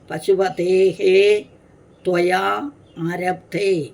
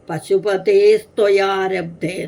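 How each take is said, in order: First: The words are split apart with separate endings. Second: The words are run together as one word. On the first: "പിരിച്ച് പറഞ്ഞിരുന്നു" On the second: "എന്നൊറ്റ പദം"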